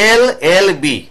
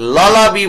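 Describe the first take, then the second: First: It begins with an 'e' vowel sound. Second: It begins directly with an 'l' sound. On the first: The speaker calls it right. "ভাওয়েলের মতো উচ্চারণ হচ্ছে" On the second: The speaker calls it wrong. "ললা বি বলি না কিন্তু"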